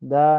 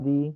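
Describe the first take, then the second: First: The word ends in a short 'uh' vowel. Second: The word ends in a long 'ee' vowel. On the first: The speaker calls it wrong. "দা pronunciation" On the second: The speaker calls it right. "ঠিক, দি।"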